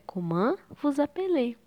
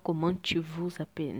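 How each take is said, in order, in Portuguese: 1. As palavras são separadas, sem ligação entre elas. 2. As palavras são ligadas, sem nenhuma pausa. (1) "como é consoante com consoante, eu não junto" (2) "Não dá para falar comment vous appelez"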